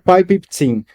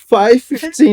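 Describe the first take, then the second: First: The first word starts with a P sound. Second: The first word starts with an F sound.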